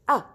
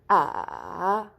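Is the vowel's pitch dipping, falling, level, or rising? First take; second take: falling; dipping. First: The pitch drops sharply from high. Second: The pitch dips down and then rises. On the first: "it's like you're cutting your voice suddenly" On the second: "you go from up to down, then up again"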